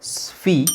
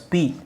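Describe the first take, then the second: First: The s is followed by an f sound. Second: The s is followed by a plain p sound. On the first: The speaker calls it right. "ಫಾ ಬರಬೇಕು" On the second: The speaker calls it wrong. "ನೀವು ಇದನ್ನ ಹೇಳ್ತಾ ಇದ್ದೀರಾ"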